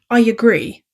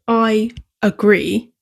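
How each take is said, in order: First: A y sound links the two words together. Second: The words are said separately without a linking sound. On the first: "sound like I agree? ... put in a w or y sound to connect the words" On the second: "Why does I agree"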